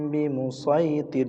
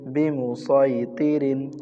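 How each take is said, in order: First: The word ends with a bare r sound. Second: The word ends with the nunation sound rin. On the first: The reader stops on this word. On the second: The reader continues without stopping.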